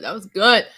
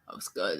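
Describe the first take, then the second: First: Louder, bright satisfied call; loud approval. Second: Much lower, much softer, strained; low after-shot groan. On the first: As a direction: declare it loudly after the shot. Repeats louder after the shot. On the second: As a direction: groan it out as the liquor burns. Reacting after a vodka shot. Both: Real, not acted.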